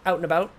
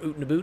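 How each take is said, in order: First: It is said in a neutral accent. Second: It is said in a Canadian accent.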